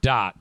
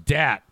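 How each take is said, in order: First: The vowel sounds like the 'o' in dot. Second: The vowel sounds like the 'a' in cat. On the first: It is how the name was actually said. "he pronounced it dot" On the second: It matches the spelling D-A-T. "pretty sure it's dat"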